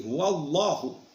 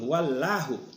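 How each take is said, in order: First: The word Allah is said with a heavy sound. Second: The word Allah is said with a thin sound. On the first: The speaker calls it right. "harus ditebalkan bacanya" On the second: The speaker calls it wrong. "Jadi bukan"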